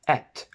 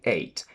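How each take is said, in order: First: The vowel is a short 'eh' sound. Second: The vowel is a long 'ay' sound.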